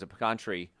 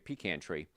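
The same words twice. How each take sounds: First: Pecan is said in a non-New Jersey way. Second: Pecan is said the New Jersey way.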